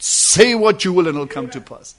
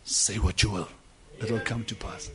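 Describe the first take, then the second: First: Fuller and firmer, declaring it; the prophet, lifted up, declares the word; raised-up proclamation. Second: Low, soft and hushed; the inner voice speaks softly to the prophet; quiet divine voice. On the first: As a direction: proclaim it with the anointing upon you. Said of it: "anointing came down upon the prophet and raised him up and said". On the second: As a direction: murmur it like a voice from within. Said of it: "And then the voice said". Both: Acted.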